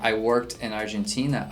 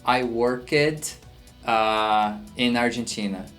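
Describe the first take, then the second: First: It flows quickly without any pause. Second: It breaks with a hesitant pause after worked.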